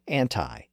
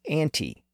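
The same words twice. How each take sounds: First: The final vowel sounds like 'eye'. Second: The final vowel sounds like 'ee'. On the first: "some speakers have anglicized it to anti" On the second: "its original pronunciation as anti"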